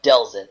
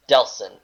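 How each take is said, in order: First: "Delson" with a buzzed z; "Delson" with the s voiced; wrong pronunciation. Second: "Delson" with a crisp s; "Delson" with an unvoiced s; corrected pronunciation. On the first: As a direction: say "Delson" as DEL-zin. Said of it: "No, it's not Delson". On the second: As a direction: say "Delson" as DEL-sin. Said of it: "it's not Delson. It's Delson". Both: Shown as a demonstration.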